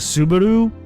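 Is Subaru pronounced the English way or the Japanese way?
English. It is said with an English-style pronunciation. This is the usual way to name the car brand. "Instead of saying Subaru"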